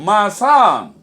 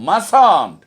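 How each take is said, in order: First: The words merge into one contracted word. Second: The same.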